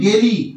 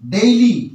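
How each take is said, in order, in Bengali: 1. প্রথম স্বরধ্বনিটি একটি সাধারণ 'e' ধ্বনি। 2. প্রথম স্বরধ্বনিটি 'e' থেকে 'i'-তে গ্লাইড করে। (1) "এই উচ্চারণটা হলো ভুল উচ্চারণ" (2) "এর সঠিক উচ্চারণ হবে ডেইলি"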